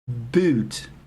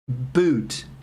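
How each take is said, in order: First: The vowel is fronted, between oo and ee. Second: The vowel is fronted, between oo and ee.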